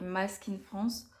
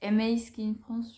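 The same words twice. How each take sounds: First: "Ma" read as one French syllable; "Ma" as a single word, ahead of Skin France. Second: "M A" as two English letters, em-ay; slower take, "M A" said em-ay; M A spelled out. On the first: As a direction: say "Ma" like French "ma", not as letters. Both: Shown as a demonstration. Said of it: "je sais pas comment ça se prononce".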